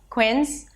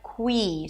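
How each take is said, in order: First: The vowel is short and clipped. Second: The vowel is a long, held high E. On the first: The speaker calls it wrong. "It's not quins" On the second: The speaker calls it right. "but qui. So it needs to be a little longer"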